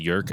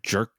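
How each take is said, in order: First: The name begins with a Y sound. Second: The name begins with a J sound. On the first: "maybe it's pronounced Yerk" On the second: "not Jerk Gustafson"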